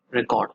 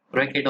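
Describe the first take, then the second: First: "record" with a full second syllable; alternative pronunciation of record. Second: "record" with the stress on the first syllable; first pronunciation of record. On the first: Teacher offering the other way to say record, as reh-KORD. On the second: Teacher offering one way to say record, stressed RECK-erd. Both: Shown as a demonstration. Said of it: "whatever you want to pronounce it".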